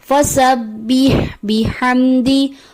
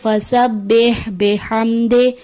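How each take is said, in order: First: The final vowel is an 'ee' sound. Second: The final vowel is an 'ay' sound. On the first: The speaker calls it right. "दुरुस्त है" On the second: The speaker calls it wrong. "जेर को मजहूल पढ़ दिया जाता है"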